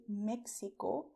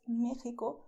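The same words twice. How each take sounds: First: Mexico with x as ks; ks as in taxi. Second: Mexico with x as a throaty h; Spanish x. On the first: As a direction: say Mexico as "Mek-si-ko". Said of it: "with the sound of taxi". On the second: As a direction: say Mexico as "MEH-hee-ko". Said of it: "to be pronounced the way I told you". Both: Shown as a demonstration.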